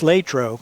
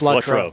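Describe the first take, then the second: First: The name is said the local residents' way. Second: The name is said the visitors' way. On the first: This is how people who live there say it. "when you live there" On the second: This is how people from elsewhere say it. "When they come here"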